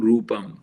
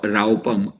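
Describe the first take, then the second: First: The first vowel is a plain long u. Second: The first vowel is not a plain long u. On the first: The speaker calls it right. "it's ru- Rupam. ... with a U at, with a bar on top" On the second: The speaker calls it wrong. "it's not a rau- Raupam"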